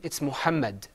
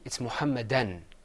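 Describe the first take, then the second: First: The word ends without an added n sound. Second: The word ends with an added n sound. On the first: "Without tanween" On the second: "With tanween"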